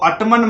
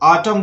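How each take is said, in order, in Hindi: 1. आख़िर में n की आवाज़ सुनाई देती है। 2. यह शब्द बिना किसी n की आवाज़ के खत्म होता है। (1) "इसको ऑटमन मत पढ़ना। कुछ बच्चे ऑटमन पढ़ देते हैं जो कि गलत है।" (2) "एन साइलेंट है ... इसको ऑटम बोलना है"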